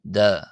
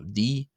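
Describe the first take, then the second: First: The name ends in an 'ah' vowel. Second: The name ends in an 'ee' vowel. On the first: "other people choose to pronounce it as da" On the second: "some people choose to pronounce it as D"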